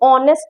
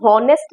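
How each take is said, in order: First: The word begins directly with a vowel sound. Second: The word begins with an audible h sound. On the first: The speaker calls it right. "हम ऑनेस्ट बोलते हैं" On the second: The speaker calls it wrong. "एच की हम हॉनेस्ट नहीं बोलते हैं"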